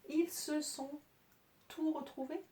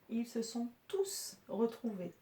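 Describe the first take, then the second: First: The final s of tous is silent. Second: The final s of tous is pronounced. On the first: The speaker calls it wrong. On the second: The speaker calls it right. "on le prononce et ça nous aide"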